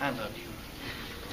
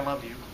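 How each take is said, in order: First: It is said warmly and with feeling. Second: It is said flatly and without warmth. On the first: The speaker truly means it. The speaker calls it right. "oh, wow" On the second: The speaker does not really mean it. The speaker calls it wrong. "what does that mean?"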